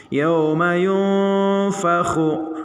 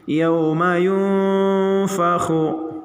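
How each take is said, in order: No difference in how they are said.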